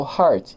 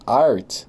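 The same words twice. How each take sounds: First: Heart with an audible breathed H; sounded H. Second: Art begun straight on the vowel. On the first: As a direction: put a clear H on heart. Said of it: "mas eu falo heart". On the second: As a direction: say art with no breath before it. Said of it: "Se eu falasse art". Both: Shown as a demonstration.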